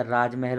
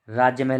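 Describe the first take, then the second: First: राजमहल as one word, "raaj-mahal", no "y"; corrected form. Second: राज्य महल with a "y", "raajya mahal"; wrong form. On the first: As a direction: go straight from j to m in राजमहल. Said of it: "सीधा राजमहल होता है". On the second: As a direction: put "jya" at the end of the first word in राज्य महल. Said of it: "राज्य महल नहीं होता". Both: Shown as a demonstration.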